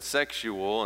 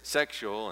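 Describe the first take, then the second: First: The word is said with three syllables. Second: The word is said with two syllables. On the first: "sometimes I pronounce that word with three syllables" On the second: "sometimes I pronounce it with two"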